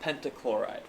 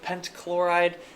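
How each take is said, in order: First: A short vowel separates the two consonants. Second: No vowel separates the two consonants. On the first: The speaker calls it right. "So I put a little vowel" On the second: The speaker calls it wrong. "That's two consonants bouncing into each other"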